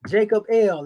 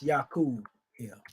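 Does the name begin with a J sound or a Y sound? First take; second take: J sound; Y sound. First: The name begins with a J sound. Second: The name begins with a Y sound. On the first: This is how people commonly say it. The speaker calls it wrong. "as they say" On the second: This is the original historical form. The speaker calls it right. "actually it's"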